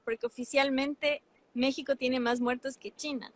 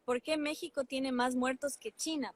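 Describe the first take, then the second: First: "oficialmente" hit hardest, as a flat statement; stress on oficialmente. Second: "qué" lifted as a question, sentence falling at "China"; posed as a question. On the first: Answering her own question for the co-host, leaning on "oficialmente". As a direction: lean on the word "oficialmente" and state it as fact. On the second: Host poses her headline question to the co-host, pointed questioning tune. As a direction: ask "¿por qué México…?" as a pointed question. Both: Shown as a demonstration. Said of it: "yo planteaba la pregunta".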